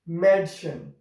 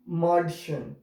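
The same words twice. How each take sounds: First: The first vowel is an 'eh' sound. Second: The first vowel is an open 'ah' sound. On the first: The speaker calls it right. "If we have these dots, two dots on it" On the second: The speaker calls it wrong. "if we remove this umlaut, then we will pronounce it Madchen. That is wrong actually"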